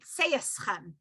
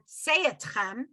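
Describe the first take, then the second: First: It is said with an s sound, Orthodox Ashkenazi. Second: It is said with a t sound, unlike Orthodox Ashkenazi.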